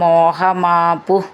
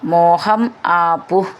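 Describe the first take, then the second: First: The two words are joined into one word. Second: The two words are said as separate words.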